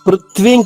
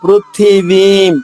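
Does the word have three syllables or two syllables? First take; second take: two syllables; three syllables. First: The word is said in two syllables, without the middle vowel. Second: The word is said in three syllables, with the middle vowel. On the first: The speaker calls it wrong. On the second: The speaker calls it right.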